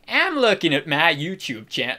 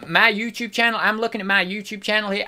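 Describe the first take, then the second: First: Exaggerated attempt at Southern twang; deliberate Southern accent. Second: Impression slipping into a Southern accent; hint of unintended Southern twang; accent drifting southern. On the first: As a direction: lean on purpose into a mock Southern accent. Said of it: "we'll just go southern, shall we?". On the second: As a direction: let the accent slide accidentally into Southern. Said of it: "I don't know why it's going southern".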